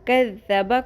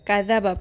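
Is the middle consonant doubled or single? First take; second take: doubled; single. First: The middle consonant is held doubled. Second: The middle consonant is said single. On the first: The speaker calls it right. "मुशद्दद" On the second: The speaker calls it wrong. "गैर मुशद्दद पढ़ना"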